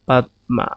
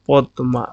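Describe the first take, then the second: First: It is read letter by letter, as spelled. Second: It is said the native Bengali way. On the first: The speaker calls it wrong. "সেটা ভুল।" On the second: The speaker calls it right. "আমরা উচ্চারণ হবে পদ্মা"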